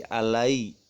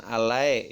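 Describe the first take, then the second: First: "alai" closing cleanly on an i sound; correct soft glide. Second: "alai" with the glide opened to ae; wrong vowel glide. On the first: Teacher gives children the correct "alai", ending on i. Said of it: "tapi alai". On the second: Teacher shows children the mistake, "alai" ending on e. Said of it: "Bukan alai ya". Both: Shown as a demonstration.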